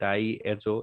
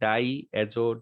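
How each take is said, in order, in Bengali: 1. দুটো অংশ স্পষ্ট ও আলাদাভাবে বলা হয়। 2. দুটো অংশ স্পষ্ট ও আলাদাভাবে বলা হয়।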